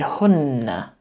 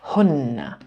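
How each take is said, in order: No difference in how they are said.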